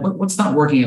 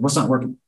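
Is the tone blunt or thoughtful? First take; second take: thoughtful; blunt. First: It is asked slowly, in a thoughtful, curious tone. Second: It is asked quickly, in a casual, blunt tone. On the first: The speaker shows real interest and invites an honest answer. The speaker calls it right. "if you say it like I said it, with the cadence and the tonality" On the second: The speaker sounds offhand, which invites a dismissive answer. The speaker calls it wrong. "Don't say it like that"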